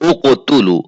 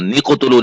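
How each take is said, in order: First: The word begins with a vowel sound. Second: The word begins with an n sound. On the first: The reading starts fresh after a stop. The speaker calls it right. "बल्कि वहां हमने क्या कहना है, उक़तुलू" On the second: The reading carries on from the previous word. The speaker calls it wrong. "निक़तुलू नहीं कहना"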